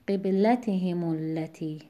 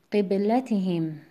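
First: قبلتهم التی slowly, joined as "himu-llati"; linked form, same stress. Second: قبلتهم slowly, ending on a still m; slow recitation of قبلتهم with no vowel after m; pausal form. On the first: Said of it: "در حرکت عارضی و وصل". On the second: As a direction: say قبلتهم alone, closing on "him". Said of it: "با سکون بخونید". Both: Shown as a demonstration.

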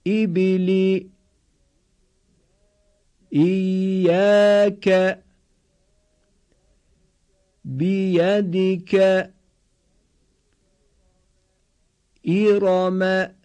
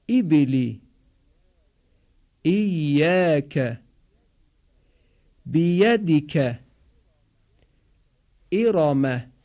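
First: Slow, higher, level chant-like syllables; repeat-after-me model. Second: Short i close to long 'ee' in ایبلی، ایاک، بیدیک، ارم; crisp model words with falling endings, i as 'ee' in ایبلی; Arabic kasra demo. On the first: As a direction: hold every syllable evenly on one raised note. (شمرده و کشیده با آهنگ یکنواخت، برای تکرار) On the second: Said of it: "صدای کشیدهٔ ای باید تلفظ بشه". (تلفظ کسرهٔ عربی شبیه «ای» در «ایبلی») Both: Shown as a demonstration.

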